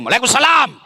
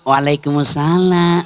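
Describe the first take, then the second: First: It is said in a firm, curt voice. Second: It is said in a soft, lilting voice.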